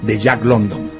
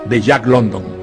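No difference in how they are said.

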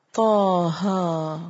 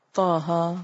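First: Taha drawn out very slowly in tajweed recitation. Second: Said in the usual way. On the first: Shown as a demonstration. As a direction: stretch Taha as in Quran reading. (Taha کو آہستہ کھینچ کر تلاوت) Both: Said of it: "لفظی ترجمہ".

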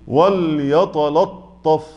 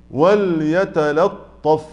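First: وليتلطف drawn out very slowly with the whole word made heavy; mock the reciters who make all of وليتلطف heavy; imitating wrong heaviness. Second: وليتلطف very slow, the lam kept thin before the heavy ta; correct light lam. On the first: Teacher imitating the wrong heavy وليتلطف. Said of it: "يقولوا إيه؟". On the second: Shown as a demonstration. Teacher modelling the correct وليتلطف. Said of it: "يبقى أعمل إيه؟".

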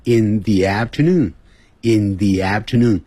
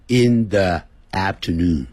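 First: "the" said "thee" before "afternoon"; long ee in "the" before the vowel of "afternoon". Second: "the" said "thuh" before "afternoon"; short schwa in "the" before "afternoon". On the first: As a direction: say "in thee afternoon", slowly and clearly. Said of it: "所以要用". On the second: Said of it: "不要念成". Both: Shown as a demonstration.

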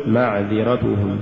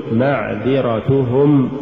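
First: معذرتهم lower, short vowels cut; snatched vowels. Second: Slow معذرتهم, every short vowel complete; full vowels. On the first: Teacher shows crooked reading, معذرتهم low and uneven. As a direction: skimp on the inner vowels of معذرتهم. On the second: Teacher models correct recitation, معذرتهم evenly voweled. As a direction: give each syllable of معذرتهم equal room. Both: Shown as a demonstration. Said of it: "ولا تقل".

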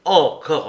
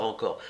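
First: « Encore » lancé fort; éclate d'agacement; exaspéré. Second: « encore » murmuré plus bas et doux; retombe, las; soupir las. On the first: (Larrier exaspéré, « Encore » fort) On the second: (Larrier las, « encore » à mi-voix) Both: Acted. Larrier exaspéré.

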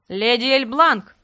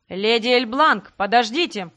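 First: Slow, loud call across a hall; man calling out to a lady. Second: Slow, loud call after her; man chasing a lady, calling out. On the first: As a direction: call her name loudly from behind. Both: A narrator's reading. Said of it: "громко позвал мужской голос".

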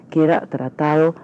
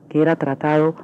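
Both takes have the same delivery.

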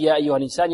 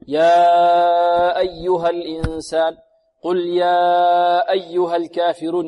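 First: Said in the usual way. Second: Slow chant with the aa of "يا" held very long; over-long madd. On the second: Retold or imitated. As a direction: stretch "يا" far out before "أيها", as in recitation. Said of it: "وبعض الطلاب يظنون أن هذا من قبيل المتصل". (مدّ الألف في "يا" مدًّا طويلًا مرتّلًا)

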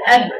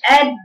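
First: "أد" shut firmly and opened at once; brief popped release on "أد"; short qalqala. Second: "أد" with the bounce wrongly dragged into a vowel; over-long qalqala. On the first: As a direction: bounce the د of "أد" quickly, no added vowel. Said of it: "يتقفل المخرج وتفتحيه بسرعة". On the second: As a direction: release "أد" too long, as a mistake. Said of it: "بدون ما تطولي القلقلة". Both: Shown as a demonstration.

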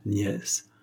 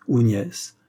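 First: Soft smiling repeat. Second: Smiling suggestion. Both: A narrator's reading. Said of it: "dit en souriant Dussonville".

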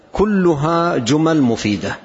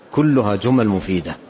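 First: كلها drawn out high and slow; slow emphasis. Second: Said in the usual way. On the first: Shown as a demonstration. Teacher stressing the point to listeners, slow and emphatic. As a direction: lean on كلها, unhurried and raised.

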